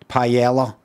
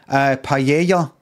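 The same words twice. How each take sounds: First: The double L is pronounced as an L sound. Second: The double L is not pronounced as an L. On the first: It is an English version of the word. "anglicised version where I just say the L's" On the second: It is the native version of the word. "I'm actually saying it properly"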